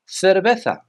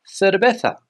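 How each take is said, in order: No difference in how they are said.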